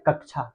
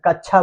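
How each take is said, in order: First: कक्षा said carefully with a clear क्ष cluster, softly; correct pronunciation. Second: कच्छा said with a plain छ sound, the wrong way; wrong pronunciation. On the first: Teacher modelling the right कक्षा for students. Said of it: "कक्षा बोलेंगे हम लोग". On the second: Teacher showing the class the wrong कच्छा. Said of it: "इसको कच्छा नहीं बोलेंगे". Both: Shown as a demonstration.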